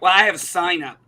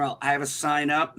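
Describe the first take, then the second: First: Louder, curt "Well, I have a SIGN up"; snippy owner. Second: Level, courteous "Well, I have a sign up"; polite version. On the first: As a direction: bite off the words like a rude shop owner. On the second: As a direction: say it like good customer service would. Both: Retold or imitated. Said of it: "what should have been in customer service is".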